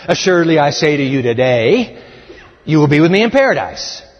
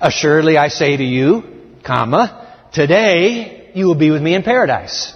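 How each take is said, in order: First: There is a pause after 'today'. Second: There is a pause before 'today'.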